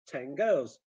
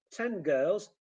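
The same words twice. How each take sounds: First: Put-on "ten girls" said as "teng girls"; "ten girls" run together, lower, ng before g; assimilated n. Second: Said in the usual way. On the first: Shown as a demonstration. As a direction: end "ten" on an ng. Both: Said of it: "sounds becoming".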